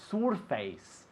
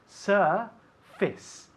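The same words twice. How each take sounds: First: The second syllable sounds like 'face'. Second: The second syllable sounds like 'fis'. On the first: The speaker calls it wrong. "Not surface" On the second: The speaker calls it right.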